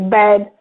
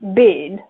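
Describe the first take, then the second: First: The vowel is an open e sound. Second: The vowel is raised, close to an i sound. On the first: "when you say bed" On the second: "they say bid"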